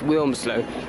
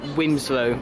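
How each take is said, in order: First: The L sound before the M is pronounced. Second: The L sound before the M is left out. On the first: The speaker calls it right. "I remind him every time it's Wilmslow" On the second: The speaker calls it wrong. "My my dad always pronounces it Wimslow, which drives me nuts"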